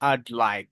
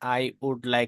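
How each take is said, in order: First: 'I would' is shortened into one syllable. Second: 'I would' is said as two full words. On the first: "আই উড কে আপনি সংক্ষিপ্ত করে ফেলবেন" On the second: "আই উড like না বলে"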